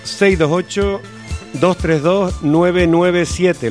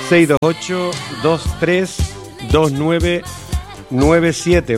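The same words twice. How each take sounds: First: The number is said at normal speed. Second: The number is said more slowly.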